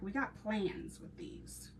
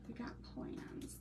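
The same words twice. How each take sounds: First: Said in the usual way. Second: Secretive whisper; whispered aside. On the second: Shown as a demonstration. Sharing crafting plans with viewers in a secretive whisper. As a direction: breathe it as a little secret.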